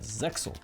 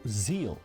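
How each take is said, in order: First: It is said the English dub way. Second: It is said the original Japanese way. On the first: "the dub it is pronounced as Zexal" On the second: "the original Japanese pronunciation"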